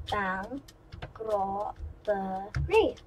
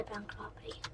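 First: "Bank robbery" slowly pulled apart, syllable by syllable; softer, halting "Bank... rob-be-ry" with gaps between the parts; broken up. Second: Said in the usual way. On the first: Shown as a demonstration. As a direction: break "Bank robbery" into separate, drawn-out pieces. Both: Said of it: "if I break it up".

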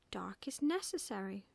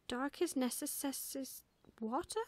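First: Said in the usual way. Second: Slow, faltering necess-, breaking off unfinished; puzzled, higher attempt at necess-, cut short; stumbling over necessary. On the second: A narrator's reading. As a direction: trip on the hissing syllables of necess-, then ask. Owl stumbles over new word.

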